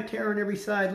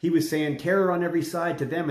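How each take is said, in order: First: Terror on every side parroted high and scornful, words tossed back; mocking crowd parroting the prophet; mocking echo. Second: Said in the usual way. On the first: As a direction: sneer the prophet's warning back at him. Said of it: "they're like".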